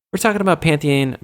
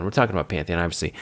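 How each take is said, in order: First: "Pantheon" in a higher, livelier announcing tone; lifted pitch falling through "Pantheon"; higher first take. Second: "Pantheon" lower and softer; low, matter-of-fact correction on "Pantheon"; lower repeat. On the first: Says it, then repeats it lower. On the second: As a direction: restate "Pantheon" in a dropped, quieter voice. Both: Real, not acted.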